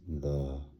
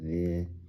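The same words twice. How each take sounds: First: The vowel is said with a relaxed mouth. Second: The vowel is said with a tense mouth. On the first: The speaker calls it right. "No, relax" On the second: The speaker calls it wrong. "there's tension in your mouth when you say"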